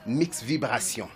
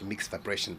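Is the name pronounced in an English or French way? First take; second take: French; English. First: It is pronounced with French sounds. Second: It is pronounced with English sounds. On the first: "but it's read Mix Vibration" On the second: "I mean in English"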